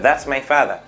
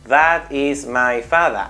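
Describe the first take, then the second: First: The words run together in one linked burst. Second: Each word is said fully and separately. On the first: The speaker calls it right. "lo digo casi todo en el menor golpe de voz posible" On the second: The speaker calls it wrong. "Ahí lo diría como si fuera un español"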